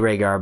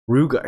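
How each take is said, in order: First: The name is said the standard way. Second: The name is said sounding like 'Ruger'. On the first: This is the intended name. The speaker calls it right. "She means to say Rhaegar" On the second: This is how the character misreads it. The speaker calls it wrong. "She says something Ruger"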